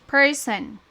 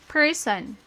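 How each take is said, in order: The two takes are said the same way.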